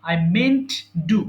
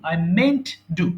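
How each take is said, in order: No difference in how they are said.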